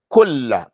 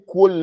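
First: The L sound is doubled and held. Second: The L sound is single, not doubled. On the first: The speaker calls it right. "Say كل. Make it a مشددة" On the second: The speaker calls it wrong. "Don't say كل يوم"

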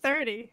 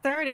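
First: The word sounds clearly like 'thirty'. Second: The word sounds close to 'tree'. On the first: The speaker calls it right. "That was better" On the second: The speaker calls it wrong. "No, you're not. Say it right"

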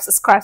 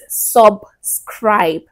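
First: The word is said fast with the B dropped. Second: The word is said with the B clearly heard. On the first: The speaker calls it wrong. "I speak really fast. That's why you don't hear the B" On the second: The speaker calls it right. "dear IJ, it's subscribe"

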